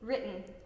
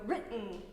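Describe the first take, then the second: First: The first syllable is long and the stop calm. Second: The glottal stop is forceful and jerky. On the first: The speaker calls it right. "we want to stay calm. The first part, ri, is going to be long" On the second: The speaker calls it wrong. "a common mistake is to go written, written, and like your whole body shakes"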